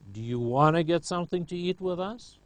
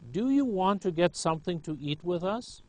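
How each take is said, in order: First: The words are shortened and run together. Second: Every word is said fully and clearly.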